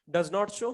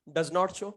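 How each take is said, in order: Both takes have the same delivery.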